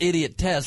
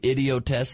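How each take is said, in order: First: The name ends in a clear word 'test'. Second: The name ends in an '-ist' style syllable. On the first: The speaker calls it right. "So it is pronounced idiot test" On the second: The speaker calls it wrong. "some people mispronounce it and say idiotest"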